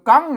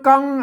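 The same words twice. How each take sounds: First: The word is said on a high tone. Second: The word is said on a level mid tone. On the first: "เสียงตีใช่ไหม" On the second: "อ่านเสียงสมาน"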